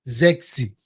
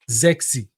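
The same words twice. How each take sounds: First: The name begins with a Z sound. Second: The name begins with a Z sound.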